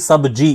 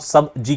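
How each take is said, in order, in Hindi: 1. शब्द एक ही बिना टूटे टुकड़े में बोला जाता है। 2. शब्द दो अलग हिस्सों में तोड़कर बोला जाता है।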